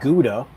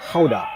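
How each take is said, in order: First: It is said with an English pronunciation. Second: It is said with a Dutch pronunciation. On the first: "That's the kind of anglicized way of saying it" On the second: "Apparently in Dutch it's Gouda"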